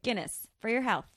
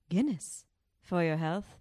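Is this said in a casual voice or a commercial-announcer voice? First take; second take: casual; commercial. First: It is said in an ordinary casual speaking voice. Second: It is said in a put-on advertising announcer voice.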